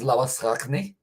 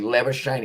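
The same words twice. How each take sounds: First: It is said with an Afrikaans pronunciation. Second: It is said with an Australian pronunciation.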